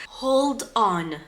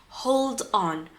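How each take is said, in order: No difference in how they are said.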